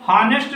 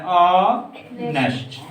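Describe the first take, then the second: First: हॉनेस्ट with a clear h sound at the start; wrong h pronunciation. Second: ऑनेस्ट said slowly, starting straight on the vowel, no h; silent h. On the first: Teacher shows students the wrong way, हॉनेस्ट said with an h. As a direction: say हॉनेस्ट with a breathy h first. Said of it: "हॉनेस्ट नहीं पढ़ेंगे भाई". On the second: Teacher models the right way for the class, ऑनेस्ट slow with no h. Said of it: "ऑनेस्ट पढ़ा जाता है". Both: Shown as a demonstration.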